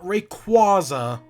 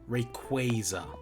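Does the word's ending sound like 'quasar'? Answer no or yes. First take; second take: no; yes. First: The ending does not sound like quasar. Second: The ending sounds like the word quasar. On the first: The speaker calls it wrong. "Not Rayquaza" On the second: The speaker calls it right. "Like Quasar"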